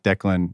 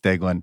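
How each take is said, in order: First: The first syllable sounds like 'deck'. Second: The first syllable sounds like 'day'. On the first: The speaker calls it wrong. "It's not Declan" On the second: The speaker calls it right. "like night and day in Glen"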